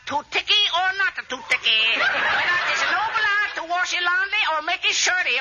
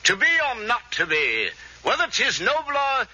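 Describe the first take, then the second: First: Put-on high, caricatured Chinese accent; mock Chinese accent. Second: Slow, mock English Shakespearean; James Mason impression. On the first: Would-be actor practices Chinese detective part, high mock Chinese accent. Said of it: "Gotta start practicing my new part". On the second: Would-be actor rehearses Hamlet as film star, slow English declaiming. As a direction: declaim slowly like an English screen idol. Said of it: "Let's see, James Mason".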